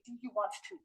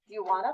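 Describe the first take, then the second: First: The words want and to are said fully. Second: The words merge into a quick wanna. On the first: "I have never heard you say" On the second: "that's how we speak"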